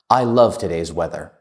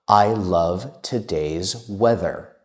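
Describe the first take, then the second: First: It is spoken at the fastest pace. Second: It is spoken at a slow pace.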